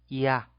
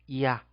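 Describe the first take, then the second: The two takes are said the same way.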